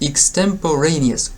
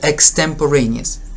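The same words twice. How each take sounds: First: The first syllable begins with an 'ik' sound. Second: The first syllable begins with an 'ek' sound. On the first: "You can say here ik" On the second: "you can say ek"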